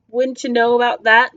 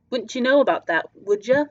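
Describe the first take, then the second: First: Challenging the stranger, rising question; pointed question. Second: Sly, falling retort to the stranger; knowing retort. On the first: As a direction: toss the question back with an edge. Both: Acted.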